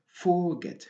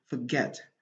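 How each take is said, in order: First: The stress is on the first syllable. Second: The stress is on the second syllable. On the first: The speaker calls it wrong. "On n'est pas autorisé de dire forget" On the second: The speaker calls it right. "on doit dire forget. ... la syllabe accentuée ici, c'est la deuxième syllabe"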